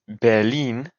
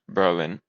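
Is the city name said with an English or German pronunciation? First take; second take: German; English. First: It is said with a German pronunciation. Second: It is said with an English pronunciation.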